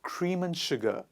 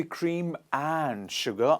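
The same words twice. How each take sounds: First: AND reduced to "un" between cream and sugar; natural weak and. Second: Full, emphasized AND between cream and sugar; stress on AND. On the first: Teacher shows how we naturally speak, AND weakened to "un". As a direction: run cream and sugar together as "cream-un-sugar". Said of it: "we say cream and sugar". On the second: Teacher shows learners what not to say, stressed AND. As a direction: hit AND with its full vowel. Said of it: "we do not say cream and sugar unless you want to emphasize". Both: Shown as a demonstration.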